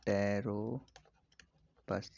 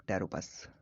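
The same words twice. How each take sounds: First: Pteropus stretched, with a gap before the end; slow dictation. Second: Said in the usual way. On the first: Shown as a demonstration. Teacher repeats flying fox's name for students, very slowly. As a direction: drag out Pteropus in separate parts.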